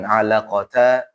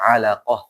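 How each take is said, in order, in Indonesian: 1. Kata ini berakhir dengan t dan vokal. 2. Kata ini berakhir dengan bunyi h yang lembut. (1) "Jadi bukan alaqata" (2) "Jadi dibaca alaqah"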